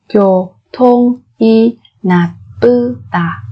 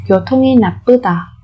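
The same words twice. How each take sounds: First: 교통이 나쁘다 stretched slowly; slow syllable drill. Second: 교통이 나쁘다 said quickly; fast native repeat. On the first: Teacher drilling learners slowly, syllable by syllable. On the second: Teacher gives the fluent native-speed version, brisk. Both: Shown as a demonstration.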